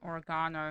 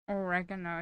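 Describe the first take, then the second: First: The word is said with a British pronunciation. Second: The word is said with an American pronunciation. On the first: "is the British Australian pronunciation" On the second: "is the American pronunci- pronunciation"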